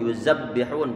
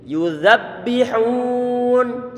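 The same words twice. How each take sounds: First: The z is a hissing sound with the tongue behind the teeth. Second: The z is a soft sound with the tongue between the teeth. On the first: The speaker calls it wrong. "Kalau nggak dikeluarkan ujung lidah" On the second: The speaker calls it right. "ujung lidah ditempelkan ke ujung gigi seri bagian atas"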